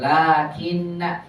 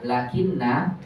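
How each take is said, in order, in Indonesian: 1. Vokal pertama dibaca panjang. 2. Vokal pertama dibaca pendek. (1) "la-nya wajib dipanjangkan" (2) "Jangan dibaca lakinna khata"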